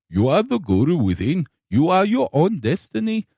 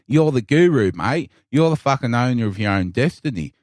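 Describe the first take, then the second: First: Lightly put-on Indian accent, guru-like; a hint of an Indian guru's lilt; mock Indian accent. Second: Put-on strong Australian accent. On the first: Coworker's Indian guru lines in a mild Indian accent. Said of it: "mimicking what was said". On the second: Guru lines redone as a broad Australian bloke. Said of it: "in a strong Australian".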